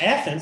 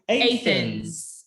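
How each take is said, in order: First: It is said the standard, usual way. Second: It is said the local Kentucky way. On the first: This is the common outside pronunciation. "instead of Athens, which we said earlier" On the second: This is how people in the area say it. "we actually say Athens"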